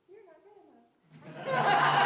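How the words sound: It is said in a squeaky Mickey Mouse voice.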